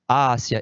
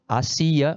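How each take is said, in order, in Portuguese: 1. A tônica está na primeira sílaba. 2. A tônica está na segunda sílaba. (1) "a Ásia é preposição" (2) "Muda o acento, porque também muda a pronúncia"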